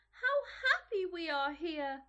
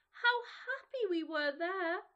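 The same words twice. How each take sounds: First: Put-on joyful children calling out; higher and louder, full of joy; happy cry. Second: Put-on slow, wistful children remembering. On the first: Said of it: "they cried to each other". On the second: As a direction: sigh it with longing. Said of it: "they said to each other".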